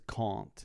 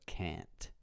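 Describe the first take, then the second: First: It is said with a British accent. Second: It is said with an American accent. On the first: "She says can't" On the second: "instead of can't"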